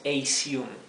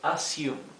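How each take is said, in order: First: The first vowel sounds like 'ey'. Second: The first vowel is a short a. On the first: The speaker calls it wrong. "No decimos assume" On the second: The speaker calls it right. "decimos assume"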